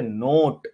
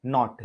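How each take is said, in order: First: नोट with a long closed "oh"; long ओ in नोट, not ऑ; second-place O vowel. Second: नॉट with an open "aw" vowel; open first-place vowel. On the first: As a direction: say नोट like English "note", ending in T. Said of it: "नोट में तो ओ आ जाता है". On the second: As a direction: say नॉट like English "not", ending in light T. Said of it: "अ का". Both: Shown as a demonstration.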